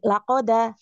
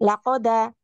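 Both takes have the same delivery.

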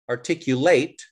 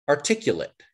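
First: It is pronounced with the verb's ending. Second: It is pronounced with the adjective's ending. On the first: It means to express an idea clearly. "The verb is articulate" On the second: It describes someone who speaks clearly. "The adjective is articulate"

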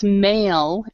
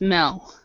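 First: The vowel is the standard long 'ay' sound. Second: The vowel is a short 'e' sound. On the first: The speaker calls it right. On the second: The speaker calls it wrong.

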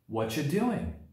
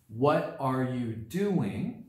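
First: The words run together quickly and smoothly. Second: Every word is said fully and separately.

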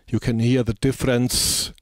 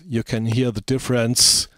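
First: The s sounds are dynamically softened. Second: The s sounds are sharp and sibilant. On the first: The speaker calls it right. "I switch it on now" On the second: The speaker calls it wrong. "I switch it off again"

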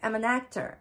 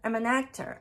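First: The words run together into one linked stream. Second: The words run together into one linked stream.

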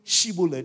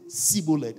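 First: The word begins with an 'sh' sound. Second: The word begins with a plain 's' sound. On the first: This is how the word is meant to be said. "instead of saying Shibboleth" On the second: This reveals the speaker as an outsider. "They were not able to pronounce the sound H"

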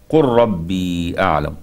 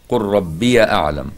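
First: The word ends in a long ee, no extra syllable. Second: The word ends in an added ya syllable.

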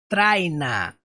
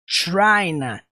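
First: The word begins with a plain t sound. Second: The word begins with a strong ch-like sound. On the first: The speaker calls it wrong. "Não é traina" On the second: The speaker calls it right. "Porque o som do T é mais forte. É China"

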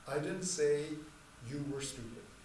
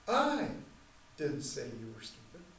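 First: It is said flatly, without emphasis. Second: It is said with strong emphasis.

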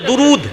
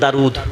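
First: The first vowel is a u sound. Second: The first vowel is an open a sound. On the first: This is the Urdu way of saying it. "উর্দুতে হলে দুরুদ" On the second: This is the way with a thin dal. "ডালকে বারিক করে পড়ি তো দারুদ"

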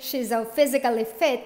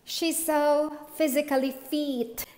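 First: The last word has a short vowel like fit. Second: The last word has a long vowel like feet. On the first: She is healthy. The speaker calls it right. "Instead of saying" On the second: It sounds as if she looks like a foot. The speaker calls it wrong. "Some people say"

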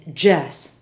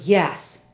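First: The word begins with a J sound. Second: The word begins with a Y sound. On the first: The speaker calls it wrong. "Spanish speakers will often say yes" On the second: The speaker calls it right. "An example is the word yes"

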